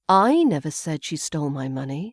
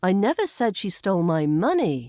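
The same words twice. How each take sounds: First: The stress falls on the word I. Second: The stress falls on the word money. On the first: Someone else may have said it. "we put the emphasis on I" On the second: She may have stolen something else. "on money"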